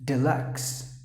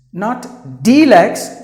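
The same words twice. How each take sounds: First: Deluxe said low and soft, de-LUX; deluxe, short e, stress on lux; right way. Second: Deluxe drawn out slow and loud, mocking the error; the wrong deluxe, exaggerated. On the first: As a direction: say deluxe quietly as the model. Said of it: "You have to pronounce it with". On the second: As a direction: stretch deluxe loud as the mistake. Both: Shown as a demonstration.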